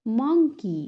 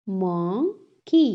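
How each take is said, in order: First: Said in the usual way. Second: "monkey" slowly split as mon, key; syllable by syllable. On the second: Shown as a demonstration. Teacher has class repeat, "monkey" broken in two. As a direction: clear pause between the two halves of "monkey". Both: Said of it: "टू syllables में divide".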